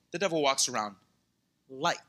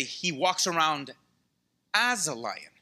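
First: Pause, then "like" alone, low; stress on LIKE. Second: Pause, then set "as" apart; "as a lion" split off after a pause; stress on AS. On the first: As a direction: leave "like" hanging by itself after a pause. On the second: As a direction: hold back before "as", then land on it. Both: Shown as a demonstration. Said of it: "read that verse too fast".

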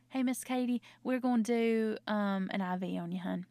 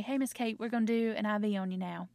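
First: Friendly, slightly lifted bedside chat ending on "hun"; sweet-talking nurse. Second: Matter-of-fact clinical announcement to a patient; technical. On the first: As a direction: talk to a patient with a Southern "hun". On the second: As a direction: tell the patient the procedure, strictly business. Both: Acted. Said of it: "that feels very technical".

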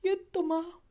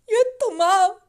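First: Said in the usual way. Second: Loud sobbing cry. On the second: Retold or imitated. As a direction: break into loud tears on the words. Son's cry retold.

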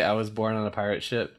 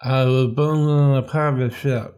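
First: Holding tongue with fingers. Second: Words mangled by a held tongue; holding tongue with fingers. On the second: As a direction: say it while pinching your tongue. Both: Shown as a demonstration. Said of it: "Do you ever hold your tongue and say".

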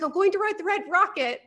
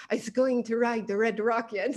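First: Said in the usual way. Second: Badly faked French accent. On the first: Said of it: "but in a French accent". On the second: Imitating Nico for the hosts, amateur French accent. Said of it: "but in a French accent, like".

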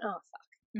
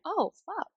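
First: Soft, under-the-breath retold curse; muttering husband. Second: Put-on high-pitched copy of a small child swearing; mimicked little child. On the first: Husband drops a burger in the dirt, quiet dismayed swear. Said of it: "he went". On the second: Child looks up and copies dad's swearing, high mimicking voice. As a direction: parrot the curse in a high little voice. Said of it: "Timo looked up and went".

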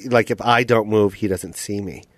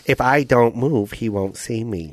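First: Put-on raccoon with a slight Asian accent, lower and fading softer; a hint of an Asian accent, imitated; lightly Asian-accented raccoon. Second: Evil Vietnamese raccoon, slowed down; stronger Asian accent. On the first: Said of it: "I don't know why I made him Asian". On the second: Acted. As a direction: lay the mock Asian accent on thicker, fading low and soft. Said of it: "Do it more Asian".

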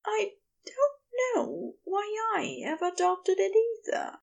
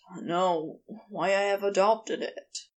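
First: High, bright character voice; lifted, happy high voice; bright, smiling. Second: Mild sigh in the character's lower voice; understated sighing regret. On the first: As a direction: answer with a smile, pitched well up. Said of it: "Aziraphale smiled brightly". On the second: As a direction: say it on a light sigh. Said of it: "Crowley said with a sigh". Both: A narrator's reading.

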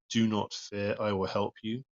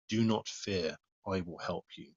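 First: "do not fear, I will help you" picked out firmly, ending raised; emphasis on the phrase. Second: Said in the usual way. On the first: Shown as a demonstration. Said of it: "Emphasis on the".

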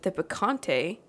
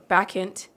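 First: "Bacante" said like "picante", ending in -tay; mispronunciation. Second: "Bacchante" cut to end in -ant, no -tay; corrected pronunciation. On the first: Real, not acted. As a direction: say "Bacante" with a Spanish-style final -tay. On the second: Shown as a demonstration. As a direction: say "Bacchante" without the final -tay sound. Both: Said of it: "Not Picante".

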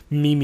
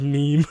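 First: Meme said as mee-mee; "meme" in two syllables, MEE-mee; mispronounced meme. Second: Said in the usual way. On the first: Shown as a demonstration. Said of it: "You sound like someone who says". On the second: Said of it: "instead of".

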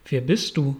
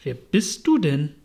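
First: Schmachtend, langsam. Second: Scornful caterpillar putting down a questioner; contemptuous. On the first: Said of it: "redete sie mit schmachtender, langsamer Stimme an". (leicht schmachtend und langsam) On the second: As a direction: ask it with open disdain. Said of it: "sagt die Raupe verächtlich". (verächtlich, von oben herab) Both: A narrator's reading.

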